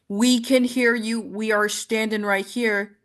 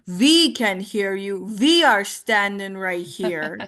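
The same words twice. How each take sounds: First: The words begin with a normal W sound. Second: The W sounds are replaced by V sounds. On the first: "instead of" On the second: "that W into a V"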